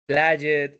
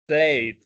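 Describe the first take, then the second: First: The ending is pronounced the Spanish way. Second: The ending is pronounced the English way. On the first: The speaker calls it wrong. "reading them like it was it was Spanish" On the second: The speaker calls it right. "It should have been"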